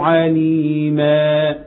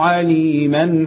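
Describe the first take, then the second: First: The word ends the phrase with a long final vowel. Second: The word runs on with a short final vowel. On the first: The reciter stops on this word. "لو وقفت على عليما اقول ايه؟ ... مديته ولا مديتش؟" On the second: The reciter continues to the next word. "لكن لو وصلت ... لا"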